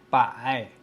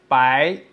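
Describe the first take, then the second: First: The pitch dips down, then rises again. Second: The pitch rises from mid to high. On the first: Hundred. "It is a falling, then rising tone" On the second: "it is a rising tone"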